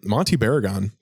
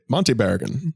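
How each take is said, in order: First: Said in the usual way. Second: Monty Barragan in a clipped transatlantic accent. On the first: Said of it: "and you mentioned them". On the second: Shown as a demonstration. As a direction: say Monty Barragan like an old film star. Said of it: "in the transatlantic accent".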